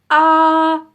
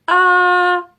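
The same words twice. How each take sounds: First: The vowel starts with a hard catch in the throat. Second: The vowel starts with a hard catch in the throat.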